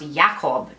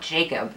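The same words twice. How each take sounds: First: The name is said the Polish-Jewish way. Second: The name is said the English way. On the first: The speaker calls it right. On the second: The speaker calls it wrong. "not Jakob"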